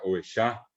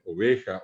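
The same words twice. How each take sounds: First: "ovejá" stressed on the last A; Guaraní final stress. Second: "oveja" as o-VE-ja; Spanish stress. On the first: Teacher giving the Guaraní form, final stress. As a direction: push the end of "ovejá". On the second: Teacher giving another example, middle stress. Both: Shown as a demonstration. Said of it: "ponerles otros ejemplos".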